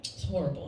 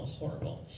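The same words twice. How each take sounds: First: Said in the usual way. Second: Breathy, soft whisper of horrible; whispered repeat. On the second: Shown as a demonstration. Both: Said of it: "repeated lament".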